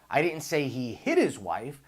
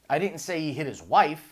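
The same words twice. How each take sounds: First: The word "hit" carries the stress. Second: The word "wife" carries the stress.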